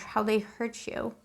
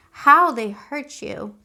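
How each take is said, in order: First: Soft and slow, ache in each word; hushed sympathy. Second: Louder and very slow, leaning on How; emphatic repeat. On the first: Tarot reader to a Scorpio viewer, softly pained and slow. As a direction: murmur it like you feel their hurt. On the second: Reader insists to the viewer how badly they were hurt, slow and loud. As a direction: drag out each word for impact. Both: Real, not acted.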